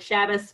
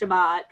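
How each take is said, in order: First: The word ends with an s sound. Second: The word ends with a t sound. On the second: "versus Shabbat"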